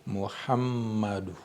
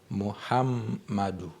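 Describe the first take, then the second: The two takes are said the same way.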